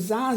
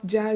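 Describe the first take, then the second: First: The syllable begins with a z sound. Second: The syllable begins with a j sound. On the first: "se você vê um Zá" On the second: "você vai falar Já"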